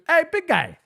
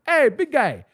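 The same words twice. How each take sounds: First: Very high, louder coo; flirty falsetto. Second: High, louder friendly call; sweet high call. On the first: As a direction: croon it up high to woo him. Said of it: "I started calling him daddy". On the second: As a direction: say it sweetly, trying to be nice. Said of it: "I was just trying to be nice". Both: Retold or imitated.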